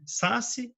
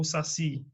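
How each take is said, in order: First: "Saci" wrongly stressed as SÁ-ci; stress on first syllable. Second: "saci" stressed as sa-CI; stress on last syllable. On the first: Teacher offers a wrong option, stress on SA of "Saci". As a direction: lean on SA in "Saci", let CI drop. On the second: Teacher gives the right option, stress on CI of "saci". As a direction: put the weight on final CI of "saci". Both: Shown as a demonstration. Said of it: "ela é mais forte".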